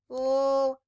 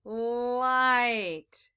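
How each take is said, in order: First: "Light" split into a held l, pause, then long i and t; sounding out. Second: "Light" in one drawn-out piece, no gap; blended word. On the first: Teacher reading a word with children, sounding out. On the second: Teacher reading a word with children, blended word. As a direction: blend "Light" slowly, holding the l and vowel. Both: Shown as a demonstration. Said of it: "Let's read it".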